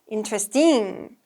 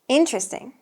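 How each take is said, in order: First: The stress falls on a later syllable. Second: The stress falls on the first syllable. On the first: The speaker calls it wrong. "I hear some stress mix-ups" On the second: The speaker calls it right. "Make sure the first syllable is stressed"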